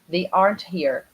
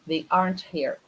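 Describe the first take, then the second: First: It has a native English pronunciation of aren't. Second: The same.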